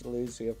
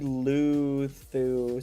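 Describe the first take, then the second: First: The second syllable starts with a z sound. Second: The second syllable starts with a th sound.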